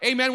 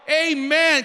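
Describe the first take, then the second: First: Said in the usual way. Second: Loud, higher, drawn-out amen; rousing amen. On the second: Real, not acted. Preacher prompts congregation for a convincing response, rousing amen. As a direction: push the congregation to answer with conviction. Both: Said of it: "not convincing".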